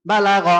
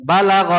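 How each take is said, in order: Both takes have the same delivery.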